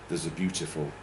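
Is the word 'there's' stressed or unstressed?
unstressed. The word 'there's' is weak and unstressed. "which is unstressed"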